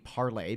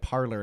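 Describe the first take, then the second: First: The name is said with a French pronunciation. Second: The name is said like the English word parlor. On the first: It uses the French word for speak. "it's spelled P A R L E R ... the French word for speak" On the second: It is the form that people adopted. "people just started pronouncing it parlor"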